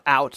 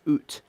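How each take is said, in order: First: The vowel sounds like the one in 'now'. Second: The vowel sounds like the one in 'boot'. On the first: The speaker calls it wrong. "It's not out, Americans" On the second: The speaker calls it right. "You spell it like a Canadian does. ... That's how you're supposed to pronounce it"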